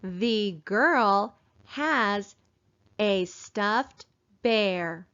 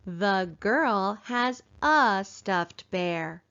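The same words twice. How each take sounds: First: The and a are said with full vowels. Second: The and a are said with reduced uh. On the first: The speaker calls it wrong. "we do not say" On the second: The speaker calls it right. "instead we say, ... And that sounds a lot better"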